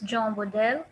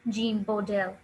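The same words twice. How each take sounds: First: The name is pronounced with French sounds. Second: The name is pronounced with British English sounds. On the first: "In French, it's" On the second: "In English, the British pronunciation is"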